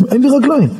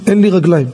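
First: Higher, retold cry of alarm; rising alarm. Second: Said in the usual way. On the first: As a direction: repeat it higher, as the alarm sinks in. Repeats it as alarm grows. (בבהלה גוברת)

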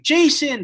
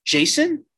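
First: "Jason," called high and loud, falling at the end; Molly calling after him as he leaves, loud; mock yell. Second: High, rising mock question on "Jason?"; Molly unsure it's really him, asking high; questioning name. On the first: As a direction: shout "Jason," down a hallway. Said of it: "Molly yelling". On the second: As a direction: ask "Jason?" in disbelief, pitching it up.

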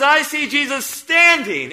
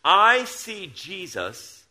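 First: "standing" drawn out, louder and higher, falling at the end; "I see Jesus standing" with a slow fall on "standing"; stress on standing. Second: Said in the usual way. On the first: Shown as a demonstration. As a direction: lean hard on "standing". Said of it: "But Stephen says". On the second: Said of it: "he says this".

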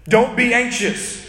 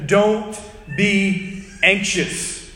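First: Said in the usual way. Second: Very slow, drawn-out command; very slow quote. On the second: Retold or imitated. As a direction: stretch every word out. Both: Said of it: "He says".

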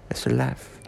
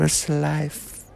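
First: Whispered. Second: Said in the usual way. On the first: Acted. Drunken rambling, repeated line.

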